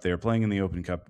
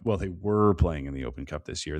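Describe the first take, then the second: First: Said in the usual way. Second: "were" stretched and leaned on; stress on "were". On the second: Real, not acted. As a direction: correct yourself, weight on "were". Self-correction stressing the past tense.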